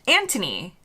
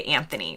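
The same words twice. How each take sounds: First: Anthony with a hard t, no th sound; Anthony said as Antony; British Anthony. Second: Anthony with a th sound as in thin; Anthony, th pronounced; American Anthony. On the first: Retold or imitated. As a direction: drop the H: Antony. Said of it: "people kept calling this person". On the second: Shown as a demonstration. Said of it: "we would almost always say Anthony".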